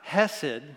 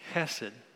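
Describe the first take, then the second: First: The first sound is a soft, plain h. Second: The first sound is a rasp from the throat. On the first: The speaker calls it wrong. "Not hesed" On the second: The speaker calls it right. "It's guttural. It's a ch"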